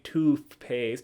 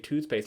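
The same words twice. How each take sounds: First: The 'th' in tooth is said as an F. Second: The 'th' in tooth is said as TH. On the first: The speaker calls it wrong. "you don't say toothpaste" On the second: The speaker calls it right. "you say toothpaste"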